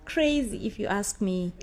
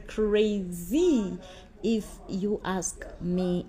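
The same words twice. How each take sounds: First: Said in the usual way. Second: CRAZY stretched, then slow, soft IF YOU ASK ME; drawn-out verdict. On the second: Real, not acted. Vlogger summing up the affair, drawn-out verdict. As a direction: linger on CRAZY and let the rest drag softly. Slowed repeat of her verdict.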